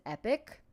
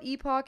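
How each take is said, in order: First: The word ends with an 'ick' sound. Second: The word ends with an 'ock' sound. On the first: "they pronounce it Epic" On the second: "I call it Epoch in my head"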